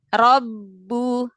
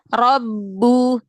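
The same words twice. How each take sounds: Both takes have the same delivery.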